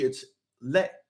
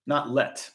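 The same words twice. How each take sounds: First: "let" said the French way, like "lay", with no t sound; "let" as the French ending, sounding like "lay"; French pronunciation. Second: Said in the usual way. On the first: Shown as a demonstration. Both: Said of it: "if it's L L E T".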